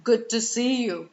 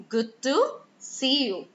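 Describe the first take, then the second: First: "Good to see you" run as one evenly emphasized sentence; every word stressed evenly. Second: "Good to", rising and pausing, then "see you" falling; emphasize the keywords in "Good to see you", pausing before "see"; stress on keywords. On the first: Teacher shows what we don't say, "Good to see you" all equally stressed. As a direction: give all of "Good to see you" the same weight, no pause. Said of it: "we don't shout and say the complete sentence".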